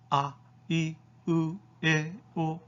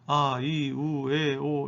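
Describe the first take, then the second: First: Each vowel is short with a sharp onset. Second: Each vowel is drawn out evenly and flatly. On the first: The speaker calls it right. "이와 같이 발음한다" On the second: The speaker calls it wrong. "이렇게 평이하게 발음하는 것이 아니고"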